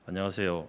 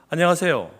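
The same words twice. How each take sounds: First: It is said in a flat, lower voice. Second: It is said in a high, bright, cute voice. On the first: The speaker calls it wrong. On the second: The speaker calls it right.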